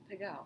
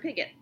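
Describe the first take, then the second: First: The name is pronounced the French way. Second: The name is pronounced the American way. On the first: The speaker calls it right. "Or as you like to say" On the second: The speaker calls it wrong. "Which is why they pronounce that name wrong"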